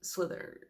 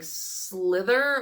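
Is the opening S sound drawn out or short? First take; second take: short; drawn out. First: The opening S sound is short and normal. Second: The opening S sound is long and drawn out. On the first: The extra letters in the spelling are ignored. "just say slither and just pretend like there's not three S's" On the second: The extra letters in the spelling are voiced. "do you say all the extra letters"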